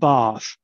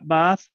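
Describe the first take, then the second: First: It has a long, low back vowel. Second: It has a low central vowel. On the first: "if you look at British English" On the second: "in Jamaica... They're low central"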